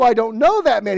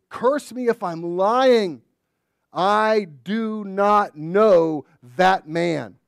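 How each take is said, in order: First: High, loud, fast denial. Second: Slow, loud, weighty oath; solemn oath. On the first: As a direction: shout the denial. Peter doubles down. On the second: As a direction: swear it slowly, word by word. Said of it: "In the holiest way". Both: Acted.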